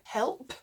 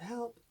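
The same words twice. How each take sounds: First: The final P sound is clearly released. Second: The final P sound is barely heard. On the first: The speaker calls it right. "With P's, you're going to want to say help" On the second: The speaker calls it wrong. "instead of help"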